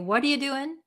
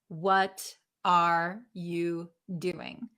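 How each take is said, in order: First: The words are reduced and run together. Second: Every word is pronounced fully and separately. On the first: The speaker calls it right. "they're not going to talk like that. They're going to say" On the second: The speaker calls it wrong. "will they pronounce every single word?"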